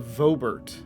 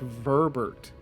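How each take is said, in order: First: The first syllable sounds like 'vo'. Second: The first syllable sounds like 'ver'. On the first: This is how the spelling suggests it is read. "I would look at that and say Vobert" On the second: This is how the characters in the game say it. "the voice acting pronounce it, it sounds like Verbert"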